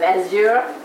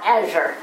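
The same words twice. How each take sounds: First: The word is said with a French-style pronunciation. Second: The word is said with a plain English pronunciation. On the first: "I want to pronounce it in a French kind of Azure" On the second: "not Azure"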